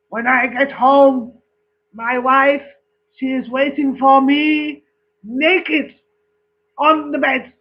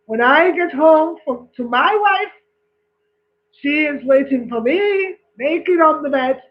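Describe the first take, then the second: First: Put-on boasting Frenchman in a joke, French accent. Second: Put-on boasting Scotsman in a joke, Scottish accent. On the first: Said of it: "the French one says". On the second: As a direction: put on a Scottish accent, one-upping the Frenchman. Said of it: "The Scottish man says".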